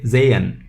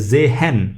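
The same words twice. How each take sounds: First: The h in the middle is silent. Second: The h in the middle is pronounced. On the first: The speaker calls it right. "we say sehen. ... h is silent" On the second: The speaker calls it wrong. "We do not say uh"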